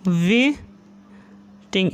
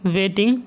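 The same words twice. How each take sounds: First: waiting drawn out very slowly, each syllable held; slowly stretched dictation. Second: Said in the usual way. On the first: Shown as a demonstration. Teacher dictating waiting to shorthand students, very slowly stretched.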